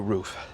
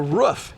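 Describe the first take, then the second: First: The vowel is long, as in 'proof'. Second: The vowel is short, like a dog's bark. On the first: This is how it is said elsewhere. "Other states call it a roof" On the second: This is the local regional way of saying it. "It's a roof here in Oklahoma"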